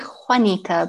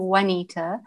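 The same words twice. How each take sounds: First: The name begins with a rough, rasping sound. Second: The name begins with a w sound. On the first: "it's actually Juanita, because Juanita is Spanish" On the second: "which sounds like a W"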